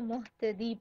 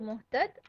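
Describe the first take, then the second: First: The word ends with a final 'ee' vowel sound. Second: The word ends on a consonant, without a vowel. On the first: Here the reader goes on without stopping. "अगर वक्फ नहीं है तो मुहतदी" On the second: Here the reader stops at the end of the word. "अगर साइलेंट पढ़ रहे हैं तो मुहतद"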